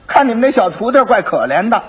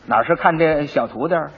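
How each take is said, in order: First: Higher, louder constable voicing fake pity over 徒弟儿; mock pity. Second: Said in the usual way. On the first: Constable pretending to pity the 小徒弟儿 while pocketing money, mock sympathetic. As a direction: lean on 徒弟儿 with put-on sympathy.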